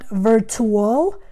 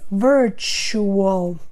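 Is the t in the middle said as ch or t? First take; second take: t; ch. First: The middle t is a plain t sound. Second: The middle t sounds like ch. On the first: The speaker calls it wrong. "So it's not virtual" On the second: The speaker calls it right. "it is virtual"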